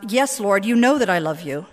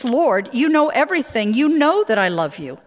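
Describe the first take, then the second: First: Said in the usual way. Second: Raised, louder hurt insistence. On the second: A narrator's reading. Peter answers Jesus's third asking, hurt and insistent. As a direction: insist on it, wounded, with lifted voice. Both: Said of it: "Peter felt hurt".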